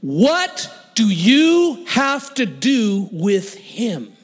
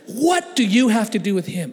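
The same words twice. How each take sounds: First: Very slow, heavily punched demand; slow-motion challenge. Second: Raised, emphatic demand at normal pace; challenging question. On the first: Gang guy challenges the churchgoer about Wayne, slow emphatic demand. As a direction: stretch and hammer every word. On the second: Gang guy's question replayed in his head, emphatic challenge. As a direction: throw it out as a pointed challenge. Same challenge repeated at speed. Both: Retold or imitated.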